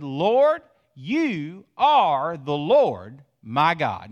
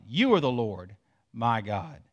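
First: Fervent cry. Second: Said in the usual way. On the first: Acted. Preacher voices the repentant man praying, louder and slow. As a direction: cry out the prayer, then slow right down. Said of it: "He said". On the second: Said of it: "For you are the Lord my God".

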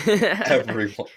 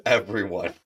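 First: Everyone stretched slowly and higher; drawn-out emphasis. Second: Said in the usual way. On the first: Real, not acted. Teasing the co-host over the trade take, Everyone drawn out slow and high.

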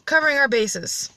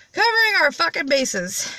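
First: Said in the usual way. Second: Higher, emphatic "Covering", falling through "fucking bases"; emphatic repeat. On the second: Real, not acted. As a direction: hit "Covering" high, then let the pitch fall.

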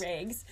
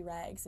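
First: Rags with the vowel of raygs, her accent. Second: Said in the usual way. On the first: Shown as a demonstration. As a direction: say rags with a long ay sound. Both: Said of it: "that is gonna be the accent".

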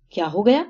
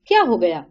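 First: What happened, lifted at the end; rising echo question. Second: What happened, dropping in pitch; falling question. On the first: Anupama repeats the question to sister-in-law, tune rising. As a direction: throw the question back, rising on gaya. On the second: Sister-in-law asks Anupama what happened, tune falling. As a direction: ask it with a firm falling end. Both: A narrator's reading.

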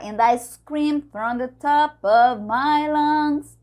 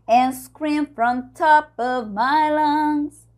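First: Sung line with "And I" and "the" fully sounded; every word pronounced. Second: Sung "And scream from top" without "I" or "the"; contracted "And scream from top", as in the song; small words swallowed. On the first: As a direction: sing it high, keeping every small word in "from the top". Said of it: "Falou todas as palavrinhas". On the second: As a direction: sing it high, running "from" straight into "top". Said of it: "fica rápido porque ela diz". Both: Shown as a demonstration.

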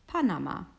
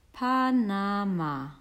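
First: Said in the usual way. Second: "Panama" stretched slowly, each syllable held; sounding out. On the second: Acted. Correcting a friend at the signpost, sounding out "Panama" slowly. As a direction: spell out "Pa-na-ma" slowly as if deciphering it.

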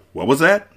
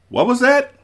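First: High rising question. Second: Very high, startled question; incredulous. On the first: Prince questions what Buttercup just asked, questioning. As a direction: ask with a lift at the end. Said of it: "the prince said". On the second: Wesley reacts to Buttercup's plea, incredulous. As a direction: shoot the pitch right up in disbelief. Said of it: "Wesley said". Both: A narrator's reading.

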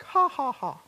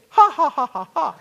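First: Loud, high "ha ha ha" laugh; hearty laugh. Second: Booming, high "ha ha ha" laugh; rich man laugh. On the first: Shown as a demonstration. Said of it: "I laugh something like". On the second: Retold or imitated. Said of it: "you laugh like a rich man".

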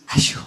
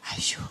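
First: Put-on gentle toddler Ashu. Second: Put-on Ashu whispered like a little child; whispered toddler Ashu, no voice. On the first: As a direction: breathe Ashu tenderly, baby-like. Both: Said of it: "con una así como suavidad".

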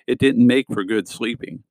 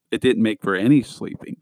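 First: Said in the usual way. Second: Emphasis landing on "any"; stress on ANY. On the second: A narrator's reading. Boy correcting himself about his bad night, stressing "any". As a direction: lean on the word "any" as a correction. Restated with the changed word stressed.

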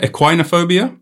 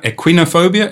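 First: "Equinophobia" with "quine" as in wine, questioning; long-i pronunciation. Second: "equinophobia" with "quin" as in win, questioning; short-i pronunciation. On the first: Unsure how to pronounce it, "Equinophobia" said ek-wine-o-phobia. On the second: Unsure how to pronounce it, "equinophobia" said ek-win-o-phobia. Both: Shown as a demonstration. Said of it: "How do I pronounce equinophobia".

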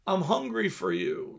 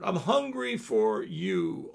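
First: Said in the usual way. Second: "hungry" drawn out slow and low; slower, lower plea. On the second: Shown as a demonstration. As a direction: repeat it slower and lower, pleading.

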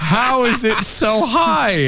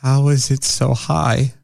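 First: High, slow, laughing question; laughing disbelief. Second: Incredulous. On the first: Repeating the question about her rating, laughing. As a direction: ask it again through a laugh. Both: Real, not acted. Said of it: "I need to know".

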